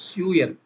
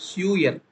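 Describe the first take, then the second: Both takes have the same delivery.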